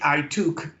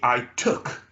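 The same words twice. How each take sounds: First: The vowel in took is a long oo. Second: The vowel in took is as in could. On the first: The speaker calls it wrong. "We don't say I took, ... not oo, not took" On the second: The speaker calls it right. "we say I took. ... The same sound as as in could, should, would"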